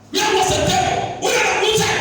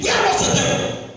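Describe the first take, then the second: First: Shouted high and loud; shouted question. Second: High, loud rhetorical question; rising cry. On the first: Preacher shouting the question back at the church. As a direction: shout it again even harder. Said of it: "repeated question louder". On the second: Preacher demanding of the congregation, high and loud. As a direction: hammer the question at the church. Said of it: "repeated question". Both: Acted.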